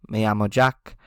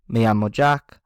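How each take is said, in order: The two takes are said the same way.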